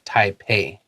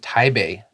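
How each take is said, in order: First: The name uses English sounds, with a P. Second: The name uses Mandarin sounds, like Tai-bei. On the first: The speaker calls it wrong. "and not Taipei" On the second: The speaker calls it right. "I said spring in Taipei"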